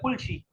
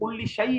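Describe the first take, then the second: First: The last word is said with an 'ee' sound. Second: The last word is said with an 'ai' sound. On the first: "तो उसको कहते हैं कुल शी" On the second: "जैसे कुल शई है"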